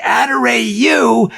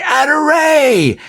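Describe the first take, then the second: First: Slow, higher drawn-out Adorayu; caller's reply. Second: Excited high cry of Adoray; mock bingo cry. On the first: Retold or imitated. Harry answers the player from the bingo machine, drawn-out call. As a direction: stretch out Adorayu like an announcer. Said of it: "would say". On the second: A player calling bingo in the hall, excited cry. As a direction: shout it like you just won. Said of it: "somebody would say".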